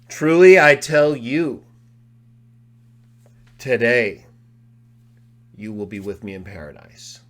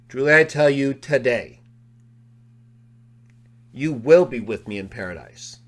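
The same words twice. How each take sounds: First: The pause comes right before 'today'. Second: The pause comes right after 'today'.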